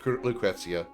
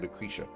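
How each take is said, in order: First: The name is said in its fuller pronunciation. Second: The name is said in a shorter, easier pronunciation. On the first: This is how the name is voiced in the game. "I know it's Lucrezia" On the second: This is the speaker's lazy everyday version. "I'm too lazy to say all that, so I just say Lucretia. It's faster and easier"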